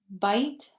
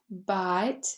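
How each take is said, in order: First: The vowel glides as in standard American. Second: The vowel stays steady without a glide.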